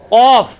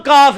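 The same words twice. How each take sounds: First: قاف loud with a heavy back-of-tongue q; deep qaaf. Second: کاف with a light, forward k; ordinary kaf. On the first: Teacher contrasting it with ordinary kaf, deep heavy qaaf. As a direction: strike قاف far back and hold it. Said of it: "اور ایک عام کاف ہے". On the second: Teacher contrasting it with qaaf, light ordinary kaf. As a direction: say کاف with an everyday thin k. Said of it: "ایک عام کاف". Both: Shown as a demonstration.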